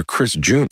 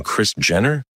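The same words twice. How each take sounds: First: "Junior" with a long oo, rising as a question; standard Junior. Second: "Jenner" with a short e, rising as a question; Junior said as Jenner. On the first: Teller offers the intended name, "Junior" with a long oo. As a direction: say "Junior", first vowel as in "June". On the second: Teller queries the dad's accent, "Jenner" with a short e. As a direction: say "Jenner", first vowel as in "pen". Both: Shown as a demonstration. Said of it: "he has, like, such an accent".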